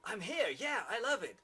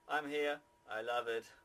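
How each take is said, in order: First: It sounds genuinely enthusiastic and pleased. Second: It sounds reluctant and forced, not meant.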